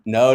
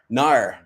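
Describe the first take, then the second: First: It is said in a plain accent. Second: It is said in an Australian accent.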